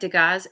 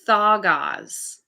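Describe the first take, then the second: First: The word begins with a d sound. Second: The word begins with a th sound. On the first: The speaker calls it wrong. "it looks like Degas" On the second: The speaker calls it right. "It's Thagaz"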